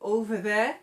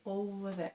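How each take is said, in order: First: Over has a v sound in the middle. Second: Over has a w sound in the middle. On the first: The speaker calls it right. "instead of over there" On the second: The speaker calls it wrong. "they might say over there"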